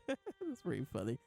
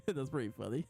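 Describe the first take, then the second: First: Repeating it through a laugh; chuckling, a little softer. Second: Said in the usual way. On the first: Real, not acted. Laughing again at the manga joke.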